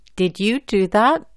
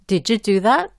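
First: Each word is said clearly and separately. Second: The words run together and link. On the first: "la pronuncio bien y claramente" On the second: "juntando o enlazando las letras"

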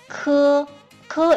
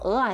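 First: The word is said with Mandarin pronunciation. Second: The word is said with Taiwanese pronunciation. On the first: "we pronounce 鹅鹅 is in Mandarin Chinese" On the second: "鹅啊 is Taiwanese"

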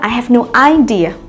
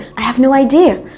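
First: The stress in idea is on the first syllable. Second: The stress in idea is on the second syllable. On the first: The speaker calls it wrong. "Tuyệt đối không nói là" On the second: The speaker calls it right. "Hãy nhớ là idea có trong âm và âm tiết thứ hai. Cho nên chúng ta hãy nói là"

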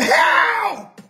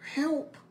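First: The word is shouted loudly in full voice. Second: The word is said quietly and held back. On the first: The person has had enough and is desperate. The speaker calls it right. "When you have had enough, you say it" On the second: The person is still holding back and not desperate. The speaker calls it wrong. "you don't holler no help. Like"

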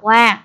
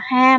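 First: The particle begins with a w sound. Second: The particle begins with an h sound. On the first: The speaker calls it right. "mà đọc là wa" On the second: The speaker calls it wrong. "chúng ta sẽ không đọc là ha"

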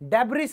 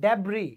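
First: The word ends with an audible s sound. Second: The word ends in a vowel, no s. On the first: The speaker calls it wrong. "डेब्रिस नहीं होता" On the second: The speaker calls it right. "आई के बाद एस जो आता है वो silent है"

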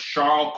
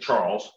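First: The name is said with a French pronunciation. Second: The name is said with an English pronunciation. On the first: "I try to pronounce the French word where it is" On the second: "English would say Charles"

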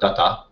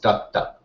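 First: The middle consonant is short, not held. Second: The middle consonant is held longer, doubled. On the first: The speaker calls it wrong. "Instead of datta" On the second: The speaker calls it right. "it's datta"

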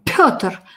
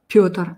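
First: The p is explosive and aspirated. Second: The p is soft and unaspirated.

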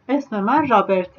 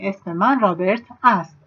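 First: The ending is reduced to a short 'e' sound. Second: The ending is the full word 'ast'. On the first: It is the everyday spoken form. "bir tane e diyorum. Artık ast demiyorum" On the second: It is the full written form. "yani esmemen Robert Ast aslında"

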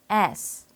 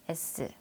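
First: The mouth opens then closes, English-style. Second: The mouth barely moves, Korean-style. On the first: The speaker calls it right. "영어식 강세와 리듬을 살려 같이 따라해 볼까요?" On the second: The speaker calls it wrong. "입을 거의 움직이지 않은 상태에서 S, S 잘못 발음해 왔어요"

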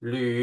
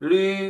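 First: It is said with the second Mandarin tone. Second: It is said with the first Mandarin tone. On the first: "เสียงที่สองหลี" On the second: "เสียงที่หนึ่งลี"

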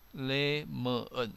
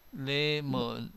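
No difference in how they are said.

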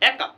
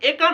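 First: The first vowel is an open ae sound. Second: The first vowel is a close e sound. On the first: The speaker calls it right. "এটার আসল উচ্চারণটা হবে অনেকটা এইরকম" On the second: The speaker calls it wrong. "এটা কিন্তু একা না"

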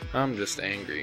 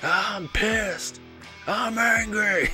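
First: The anger is said calmly and restrained. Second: The anger is said loudly and over the top.

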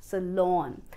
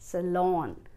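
First: The second syllable sounds like 'lawn'. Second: The same.

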